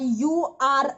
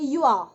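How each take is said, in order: First: You and are are spoken as separate words. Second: You and are are merged into one syllable. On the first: The speaker calls it wrong. "अलग अलग नहीं बोलेंगे" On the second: The speaker calls it right. "कैसे बोलेंगे"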